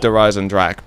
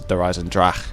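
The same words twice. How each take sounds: First: The name is said with an English pronunciation. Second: The name is said with a German pronunciation. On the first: The speaker calls it wrong. "I can't pronounce it in an accent" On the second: The speaker calls it right. "I know that's not how you say it, it's Der Eisendrache"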